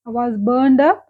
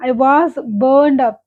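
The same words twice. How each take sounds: First: Said in the usual way. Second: Each word spelled out slowly for learners; teacher reading the example very slowly. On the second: Shown as a demonstration. English teacher reading a sample sentence to students, very slowly. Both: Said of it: "teacher repeats the example sentence".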